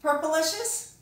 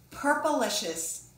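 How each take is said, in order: First: Asking question. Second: The title said slowly and grandly, falling at the end; slow title announcement. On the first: Shown as a demonstration. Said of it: "Have you read Pinkalicious?". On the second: Acted. Author announcing the book title to young listeners, slow and grand. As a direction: present the book's name to the children like a show opening.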